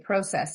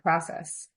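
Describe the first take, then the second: First: The word is pronounced the British way. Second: The word is pronounced the American way. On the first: This is the form picked up from living abroad. "you say process" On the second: This is the expected form for the speaker's background. "instead of process"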